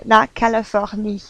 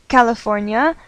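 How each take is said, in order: First: La Californie said the French way, even syllables, nasal-free French vowels; French pronunciation. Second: California said the English way, stress on the middle syllable; English pronunciation. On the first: Teacher gives students the French name, French pronunciation. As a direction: say la Californie as a French speaker would. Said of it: "mais en français on dit". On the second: Teacher contrasts the English name with French, English pronunciation. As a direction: say California as an American would. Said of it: "en anglais on dit". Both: Shown as a demonstration.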